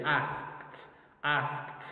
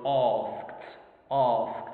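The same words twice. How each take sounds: First: Northern British "asked" with the a of cat; northern British accent. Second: RP "asked" with long aw vowel; British RP accent. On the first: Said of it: "more to the north, we can say". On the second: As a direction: say "asked" in Received Pronunciation, vowel as in heart. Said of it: "using the Royal British or the original". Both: Shown as a demonstration.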